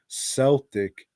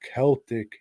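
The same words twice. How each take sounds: First: It is pronounced the way Boston locals say it. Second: It is pronounced the usual, non-Boston way.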